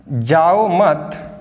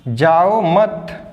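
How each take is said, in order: No difference in how they are said.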